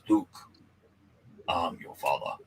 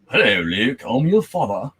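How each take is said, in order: First: It is said in a deep, raspy voice. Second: It is said in a light British voice.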